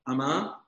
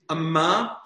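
First: The m sound is short and single. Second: The m sound is doubled and held longer. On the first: It means a maidservant. "Amma, maidservant" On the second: It means a cubit. "Mem degusha. ... Amma, cubit"

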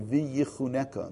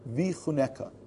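First: An extra 'yi' syllable comes before 'chuneka'. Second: No extra syllable comes before 'chuneka'. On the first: The speaker calls it wrong. "it is not, as people very often say, v'yichuneka" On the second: The speaker calls it right. "It's v'chuneka"

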